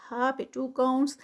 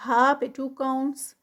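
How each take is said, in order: Both takes have the same delivery.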